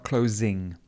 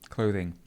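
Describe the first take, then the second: First: The middle consonant is an 's' sound. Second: The middle consonant is a 'th' sound. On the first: The speaker calls it wrong. "not closing" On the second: The speaker calls it right. "clothing, not closing"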